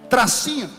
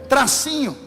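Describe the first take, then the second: The two takes are said the same way.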